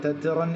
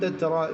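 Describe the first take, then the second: First: The word ends with an n sound. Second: The word ends on an open vowel. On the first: The speaker calls it wrong. "തെറ്റിറൻ എന്ന് തൻവീൻ ഉണ്ടോ" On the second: The speaker calls it right. "നിർത്തുമ്പോൾ തെറ്ററ"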